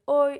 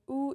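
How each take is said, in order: First: The letters are said as oi. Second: The letters are said as oo. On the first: "It's not oi" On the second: "it's not ou"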